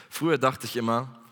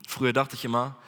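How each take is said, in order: The two takes are said the same way.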